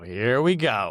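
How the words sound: It sounds weary and aggrieved, like rolling eyes. Something annoying is happening yet again. "almost like this sort of aggrieved"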